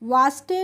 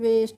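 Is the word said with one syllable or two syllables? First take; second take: two; one. First: It is said in two syllables, 'vaas-tay'. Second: It is said in one syllable, 'vest'. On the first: The speaker calls it wrong. "वास्टे नहीं पढ़ेंगे" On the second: The speaker calls it right. "इसको कैसे पढ़ेंगे वेस्ट"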